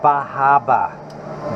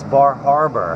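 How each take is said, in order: First: It is said in a Boston accent. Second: It is said in a general accent. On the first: The speaker calls it wrong. "the rich Boston crew, they call it Bahaba" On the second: The speaker calls it right. "No, it's Bar Harbor"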